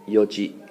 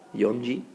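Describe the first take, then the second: First: The word begins with yo, no n sound. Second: The word begins with yon, an n sound. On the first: The speaker calls it right. "You say yoji" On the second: The speaker calls it wrong. "Don't say yonji"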